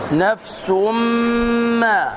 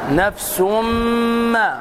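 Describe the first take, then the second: The two takes are said the same way.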